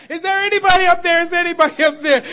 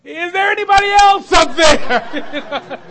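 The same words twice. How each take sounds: First: Loud, high, fast desperate call; crying out. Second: Drawn-out loud shout. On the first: Man hanging off a cliff calling for help, loud desperate cry. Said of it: "he's crying out". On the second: Man on the cliff refusing the offered hand, slow loud shout. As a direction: bellow it slowly, punchline style. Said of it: "And the guy goes". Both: Retold or imitated.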